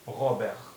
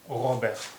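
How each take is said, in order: First: The name is said with a French pronunciation. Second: The same.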